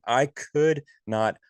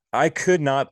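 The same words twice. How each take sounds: First: "could" drawn out slowly, higher, falling; slow stress on could. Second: "could" punched high and loud; stress on could. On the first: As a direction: stretch "could" in slow disbelief. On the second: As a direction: hit "could" hard, then fall. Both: Real, not acted.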